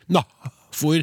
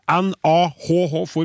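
First: No h-sound follows the first vowel. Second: A drawn-out h-sound follows the first vowel. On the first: "jeg får ikke å uttale begge H. Det blir NAFOR" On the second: "det er jo på en måte to H-er der"

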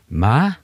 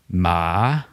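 First: The word is said on a rising tone. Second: The word is said on a dipping-rising tone. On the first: The word means mother. "så betyr det mor" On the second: The word means grave. "Det betyr grav"

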